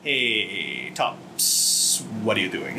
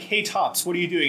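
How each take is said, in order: First: The final question is thrown away quickly. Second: The final question is said fully and evenly. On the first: "He just throws away like, "What are you doing?" at the last minute" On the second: "the line is just like"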